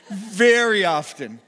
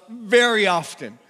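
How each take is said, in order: Both takes have the same delivery.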